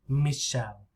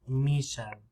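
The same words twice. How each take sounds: First: The stress is on the first syllable. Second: The stress is on the first syllable.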